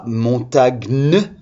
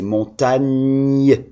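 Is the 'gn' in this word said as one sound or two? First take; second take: two sounds; one sound. First: The g and n are sounded separately. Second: The g and n merge into one 'ny' sound. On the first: The speaker calls it wrong. "ça fait pas montagne" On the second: The speaker calls it right. "c'est montagne"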